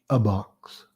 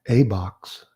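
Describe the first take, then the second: First: The word a is reduced to a weak vowel. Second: The word a is said in full form. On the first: The speaker calls it right. "practice saying a box" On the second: The speaker calls it wrong. "instead of saying a box"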